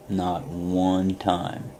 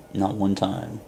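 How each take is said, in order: First: "not one time" drawn out very slowly; slow emphatic repeat. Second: Said in the usual way. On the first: Real, not acted. Speaker insists he never gave up, "not one time" said very slowly for emphasis.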